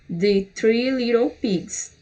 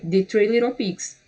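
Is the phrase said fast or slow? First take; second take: slow; fast. First: The phrase is said slowly, word by word. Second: The phrase is said quickly and smoothly. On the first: "Primeiro você vai no" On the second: "Mais rapidozinho"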